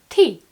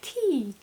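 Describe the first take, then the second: First: The word is said short and clipped. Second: The word is drawn out and held longer. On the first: It means the drink. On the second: It means please.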